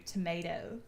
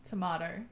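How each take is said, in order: First: Tomato said "to-MAY-toh"; long "ay" in the middle of tomato; mocked American tomato. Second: Tomato said "to-MAH-toh"; Australian tomato. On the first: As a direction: imitate the American tomato, "tomayto". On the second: Shown as a demonstration. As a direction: open "ah" in the middle of Tomato. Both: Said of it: "don't come at me with your tomato".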